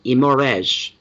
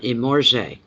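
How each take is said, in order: First: Imorge ending in a closed "ezh"; trying another pronunciation. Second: Imorge ending in an open "zhay"; trying a pronunciation. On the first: Streamer retrying a viewer's name, Imorge ending in "ezh". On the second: Streamer sounding out a viewer's name, Imorge ending in "zhay". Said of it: "I love that. Imorge". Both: Shown as a demonstration.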